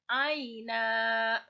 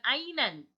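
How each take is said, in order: First: The word ends with a lengthened vowel, no n. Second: The word ends with a short vowel and n. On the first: The speaker calls it right. "menjadi aina. Dipanjangkan dua harokat" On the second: The speaker calls it wrong. "Dibacanya bukan ainan"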